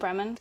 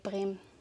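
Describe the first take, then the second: First: The ending of the word is fully pronounced. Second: The ending of the word is swallowed.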